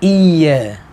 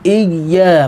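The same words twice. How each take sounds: First: The y sound is short and single. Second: The y sound is held and doubled. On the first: The speaker calls it wrong. "Kalau iya berarti nggak ada tasdid" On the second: The speaker calls it right. "Iya di sini ada tasdid, harus jelas"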